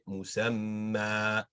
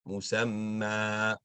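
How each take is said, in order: First: The final vowel is held for two counts. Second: The final vowel is held for two counts.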